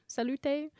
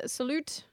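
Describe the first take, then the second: First: "salute" said as sa-loo-TAY; alternate pronunciation. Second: Said in the usual way. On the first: Shown as a demonstration. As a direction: give "salute" an extra final syllable, "tay". Reads out a greeting two ways.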